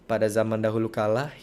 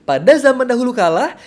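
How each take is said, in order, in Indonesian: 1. Diceritakan dengan intonasi yang datar dan tidak menarik. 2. Diceritakan dengan intonasi yang hidup dan bervariasi. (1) "Jangan sampai ketika ada anak kecil, kita bawakannya seperti ini" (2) "Kalau diceritakan seperti itu, mostly atau biasanya anak kecil akan diam"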